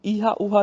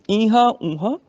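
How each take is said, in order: First: ਈਹਾ ਊਹਾ said without nasalisation; mistaken oral vowels. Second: ਈਹਾਂ ਊਹਾਂ said with nasalised vowels; nasal with bindi. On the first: Teacher shows the mistake, ਈਹਾ ਊਹਾ without nasal sound. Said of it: "ਨਹੀਂ ਪੜ੍ਹਨਾ". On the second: Teacher corrects it, ਈਹਾਂ ਊਹਾਂ nasalised. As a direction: let ਈਹਾਂ ਊਹਾਂ ring through the nose. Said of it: "ਬਿੰਦੀ ਨਾਲ ਉਚਾਰਨ ਹੋਏਗਾ". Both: Shown as a demonstration.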